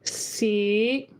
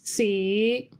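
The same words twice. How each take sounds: First: Tone five, floating up at the end. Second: The same.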